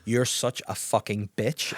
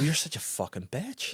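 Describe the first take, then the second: First: It is said in a flat, matter-of-fact tone. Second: It is said in a playful, sassy tone. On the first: It is a real insult. "but see if you write it down" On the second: It is a friendly joke. "see if you were to go"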